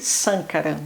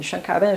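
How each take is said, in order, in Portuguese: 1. O nome começa com som de s. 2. O nome começa com som de sh. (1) "Vocês deveriam chamá-lo de Sankaran, não é Shan" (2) "sempre falo errado o nome dele"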